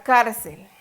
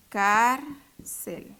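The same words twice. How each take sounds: First: Said in the usual way. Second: "Cárcel" as "Cár ... cel"; syllable by syllable. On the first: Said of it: "Cuál es la sílaba tónica". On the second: Shown as a demonstration. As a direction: separate "Cárcel" with a clear pause. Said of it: "dividámosla". ("Cár ... cel", separado en sílabas)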